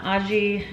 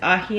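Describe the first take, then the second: First: The middle consonant is an English j sound. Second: The middle consonant is a breathy h sound. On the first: The speaker calls it wrong. "not aji" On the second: The speaker calls it right. "the reason it's ahi"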